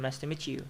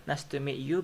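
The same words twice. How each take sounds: First: "meet you" blended as "meechoo"; quick linked "nice to meet you" with ch; assimilated MEET YOU. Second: "meet you" as two words, plain t then y; quick but unblended "meet you"; unlinked MEET YOU. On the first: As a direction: run "meet you" together with ch. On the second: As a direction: keep t and y apart in "meet you". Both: Shown as a demonstration. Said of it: "you become ch".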